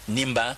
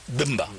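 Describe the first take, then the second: First: The name begins with an N sound. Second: The name begins with a B sound. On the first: This is the simplified common pronunciation. The speaker calls it wrong. "on dit Nimba" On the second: This is the original local pronunciation. The speaker calls it right. "Le masque, c'est Bumba"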